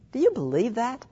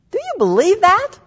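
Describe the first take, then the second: First: Said in the usual way. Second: Loud, high-pitched insistent question; emphatic challenge. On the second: Real, not acted. Preacher repeating her question to the congregation, loud emphatic challenge. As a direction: press the question on them, much louder and higher.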